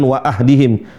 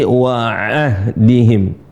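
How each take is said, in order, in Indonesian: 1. Bunyi ain lemah dan tidak jelas. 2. Bunyi ain diucapkan dengan jelas. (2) "di ain ya, harus dijelaskan"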